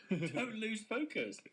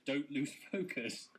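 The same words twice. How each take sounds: First: High, slow, amused repeat of a slogan; laughing mockery. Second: Reading email slogan. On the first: Gym member mocking an email from his gym, laughing incredulity. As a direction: draw it out high, through laughter. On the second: Retold or imitated. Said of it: "It says".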